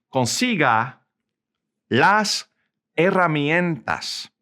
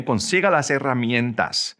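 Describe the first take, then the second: First: Slow Spanish, a long pause after each word; slow model sentence. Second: Said in the usual way. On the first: Shown as a demonstration. Teacher models the command for learners, slow, word by word. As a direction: break "Consiga las herramientas" into separate, slow words.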